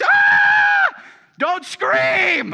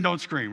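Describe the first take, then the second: First: Put-on a full yell at the kids, much higher and louder; dad yelling at noisy kids to stop screaming. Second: Said in the usual way. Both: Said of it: "I'm screaming".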